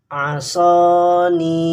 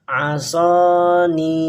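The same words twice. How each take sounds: Both takes have the same delivery.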